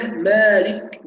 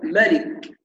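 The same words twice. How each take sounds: First: "مالك" said "maalik", first a held long; long-alif reading. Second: "مالك" said "malik", first a short; short-vowel reading. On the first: Teacher shows the second reading, مالك with a long a. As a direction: stretch the first vowel of "مالك". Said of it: "بإثبات الألف". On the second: Teacher shows the first reading, مالك with a short a. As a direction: cut the alif from "مالك". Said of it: "بحذف الألف". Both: Shown as a demonstration.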